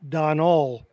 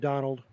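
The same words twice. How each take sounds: First: The name ends without a final d sound. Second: The name ends with a final d sound. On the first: This is the name's original form. "his real name is Donald" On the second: This form makes the name sound American or British. "they put a D at the end and made it Donald"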